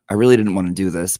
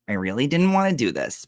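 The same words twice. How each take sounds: First: It is read in the speaker's normal voice. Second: It is read in a put-on imitation voice.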